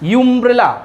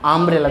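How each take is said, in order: First: The word begins with a 'yoo' sound. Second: The word begins with an 'uh' sound. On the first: The speaker calls it wrong. "আমরা তো বলি না ইউমব্রেলা" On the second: The speaker calls it right. "আমরা বলি আমব্রেলা"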